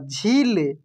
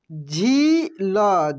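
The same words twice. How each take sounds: First: Said in the usual way. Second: झील stretched very slowly with a long ई; drawn out. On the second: Shown as a demonstration. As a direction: hold the vowel of झील long. (झील को खींचकर बोलिए) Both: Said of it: "क्या पढ़ेंगे हम लोग?".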